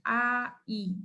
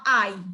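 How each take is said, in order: First: It is said slowly, broken into separate parts. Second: It is said smoothly in one go.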